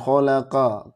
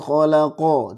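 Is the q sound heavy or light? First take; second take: light; heavy. First: The q sound is light, with a bright vowel. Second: The q sound is heavy, with a dark vowel. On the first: The speaker calls it wrong. "jangan khalaqa, ka, ka, tapi ko" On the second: The speaker calls it right. "ko itu huruf tebal"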